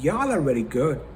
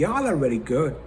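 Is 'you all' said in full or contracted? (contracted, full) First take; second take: contracted; contracted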